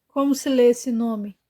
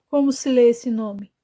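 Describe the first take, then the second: The two takes are said the same way.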